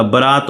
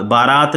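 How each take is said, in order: First: बारात with a short first vowel, "ba-raat"; correct short vowel. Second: बारात with a long "aa" in the first syllable; wrong long vowel. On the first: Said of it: "बारात होता है". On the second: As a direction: say बारात as "baa-raat". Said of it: "बारात नहीं होता". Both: Shown as a demonstration.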